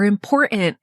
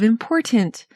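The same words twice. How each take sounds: First: It is said in a Utah accent, T swallowed. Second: It is said with the T clearly pronounced.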